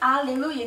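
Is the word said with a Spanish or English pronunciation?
Spanish. The word is said with a Spanish pronunciation. This is not how people there say it. "no dicen aleluya"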